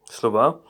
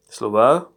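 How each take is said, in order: Both takes have the same delivery.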